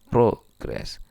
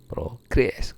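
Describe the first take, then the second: First: The stress is on the first syllable. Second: The stress is on the second syllable. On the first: It is a noun. "Kalau ditekan di awal" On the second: It is a verb. "kalau final stress, tekanan pada silabel akhir"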